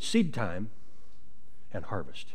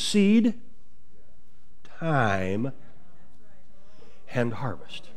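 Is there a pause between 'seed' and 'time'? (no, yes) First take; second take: no; yes. First: Seed and time run together without a pause. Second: Seed and time are separated, time drawn out. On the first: The speaker calls it wrong. "a lot of people pronounce it seed time and harvest" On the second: The speaker calls it right. "if you pronounce it correctly, it's seed time and harvest ... Seed, time. ... Elongate that now"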